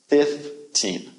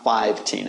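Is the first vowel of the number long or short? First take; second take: short; long. First: The first vowel is a short 'ih' sound. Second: The first vowel is a long 'eye' sound. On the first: The speaker calls it right. "it's 15. Short I sound" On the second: The speaker calls it wrong. "15 is not 15"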